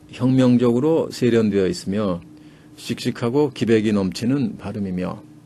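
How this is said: The sentence is read in two smooth phrases. It is the ordinary everyday reading style. "우리 식으로 읽으면은 … 두 토막밖에 안 돼요"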